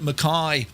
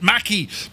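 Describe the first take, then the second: First: The name is said the Australian way. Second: The name is said the Irish way. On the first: "they call it" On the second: "if you're in Ireland, we'd call it"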